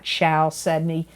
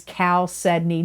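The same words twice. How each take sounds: First: Chalcedony with a soft SH start, shal-SED-nee; mispronunciation. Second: Chalcedony with a hard K start, kal-SED-nee; correct pronunciation. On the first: Crystal reader warning viewers off a misreading, chalcedony with an SH sound. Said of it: "not chalcedony". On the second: Crystal reader showing viewers how to pronounce the stone, chalcedony with a K sound. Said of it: "That is the way you pronounce it". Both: Shown as a demonstration.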